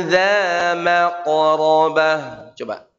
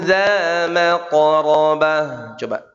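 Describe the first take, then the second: Both takes have the same delivery.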